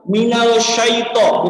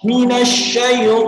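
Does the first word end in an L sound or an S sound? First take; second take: L; S. First: The first word ends with an L sound. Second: The first word ends with an S sound. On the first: The speaker calls it wrong. "bukan minal minal syaito, bukan" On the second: The speaker calls it right. "tapi minas minas syaito"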